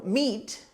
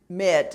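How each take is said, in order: First: The vowel is long, like in 'meat'. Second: The vowel is short, like in 'met'. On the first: The speaker calls it right. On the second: The speaker calls it wrong.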